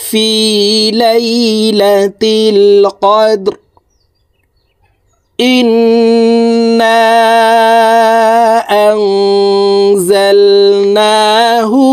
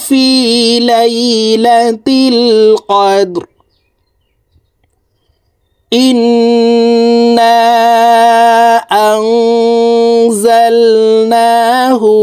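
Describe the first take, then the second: Both takes have the same delivery.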